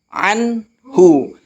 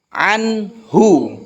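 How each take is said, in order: First: The n is pronounced clearly before the h. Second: The same.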